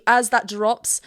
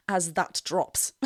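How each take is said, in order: First: Said in the usual way. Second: AS THAT DROPS slowed and lowered; dropping voice. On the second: Shown as a demonstration. Coach miming the singer's drop, voice sinking. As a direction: let the voice sink slowly through the phrase.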